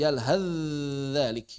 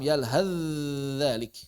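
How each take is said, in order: First: The th sound merges into the following dh. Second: The same.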